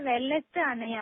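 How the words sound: The words are separated into two parts. "அப்படி பிரிச்சு சொல்லலாங்களா"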